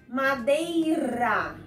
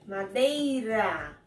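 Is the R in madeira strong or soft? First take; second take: strong; strong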